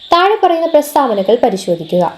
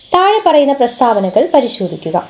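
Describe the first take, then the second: No difference in how they are said.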